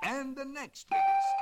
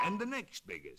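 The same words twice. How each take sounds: First: Much higher and louder held note; top note. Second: Higher sung-out step; rising note. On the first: Octopus reaches the top shell, high loud held note. Tapping turtle shells as notes. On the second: Octopus tapping shells, voice climbing the scale. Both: Acted.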